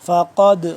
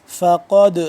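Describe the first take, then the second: No difference in how they are said.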